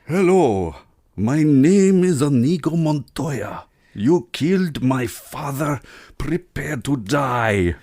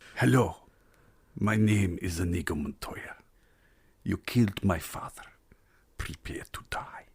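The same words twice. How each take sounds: First: It is said with more energy. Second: It is said with lower energy.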